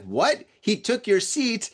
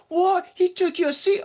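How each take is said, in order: First: Lightly imitated disbelief, slow and rising at the end; toned-down mock outrage in own accent; retold incredulous boyfriend. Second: Very high put-on voice, incredulous; squeaky mock-foreign disbelief; imitated accent. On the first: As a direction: retell his challenge, stretched out and higher on the accusation. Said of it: "this guy's like". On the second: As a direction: mimic an outraged tourist in a caricatured accent. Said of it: "Oh, yeah, I did it again".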